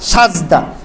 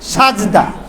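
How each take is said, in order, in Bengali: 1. প্রথম সিলেবলে 'a' স্বর আছে: saj। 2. প্রথম সিলেবলে 'a' স্বর আছে: saj।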